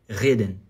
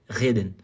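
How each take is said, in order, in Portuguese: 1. O R vibra na parte de trás da boca. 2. O R vibra na parte de trás da boca.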